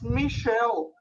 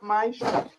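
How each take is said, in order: First: The name is said with a French pronunciation. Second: The name is said with an English pronunciation. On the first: The speaker calls it right. "Michel is a French name, and it's Michel" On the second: The speaker calls it wrong. "not Michel"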